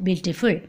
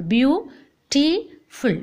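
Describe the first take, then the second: First: Said in the usual way. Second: Very slow "Beautiful" in three separate beats; long gaps between the syllables of "Beautiful"; split into syllables. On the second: Shown as a demonstration. Teacher showing three syllables to class, very slow syllable by syllable. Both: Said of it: "Three syllable".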